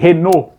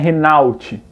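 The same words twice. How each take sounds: First: The final T sound is silent. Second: The final T sound is pronounced. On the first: The speaker calls it right. "Eles não pronunciam o T" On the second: The speaker calls it wrong. "não é Renault"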